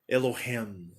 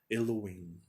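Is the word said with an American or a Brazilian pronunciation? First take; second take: American; Brazilian. First: It is said with an American pronunciation. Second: It is said with a Brazilian pronunciation. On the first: "O americano fala assim" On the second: "mas no Brasil vocês vão pronunciar diferente"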